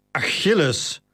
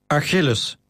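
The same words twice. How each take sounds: First: Calming. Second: A firm, commanding call of the name; stern. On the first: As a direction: ease him down gently with his name. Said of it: "in een poging hem te kalmeren". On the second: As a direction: order him like a master to a slave. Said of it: "klonk Maximus' stem streng". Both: Acted.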